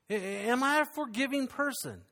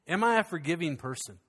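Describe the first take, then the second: First: "am I a forgiving person" asked again, pitched higher; higher repeated question. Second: Said in the usual way. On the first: Shown as a demonstration. Preacher pressing the congregation again, asked higher. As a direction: lift the repeat up to press it home. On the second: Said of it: "great question for us today".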